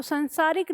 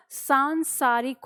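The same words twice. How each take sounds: First: संसारिक said with a short a in the first syllable, san-saarik; teacher sounds out the wrong form संसारिक with a short san; wrong spelling said. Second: सांसारिक said slowly with a long nasal aa, saan-saarik; correct spelling, slowly. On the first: Teacher showing students the misspelled संसारिक, short san. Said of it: "संसारिक नहीं होगा". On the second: Teacher correcting students: slow, careful सांसारिक with long saan. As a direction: draw out the right form सांसारिक, stressing the long saan. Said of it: "क्या होगा?". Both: Shown as a demonstration.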